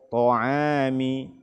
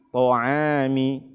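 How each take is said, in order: No difference in how they are said.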